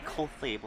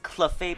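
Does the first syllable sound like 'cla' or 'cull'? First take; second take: cull; cla. First: The first syllable sounds like 'cull'. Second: The first syllable sounds like 'cla'. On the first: The speaker calls it wrong. "I say Cull instead of Cla" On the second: The speaker calls it right. "it's Clefable"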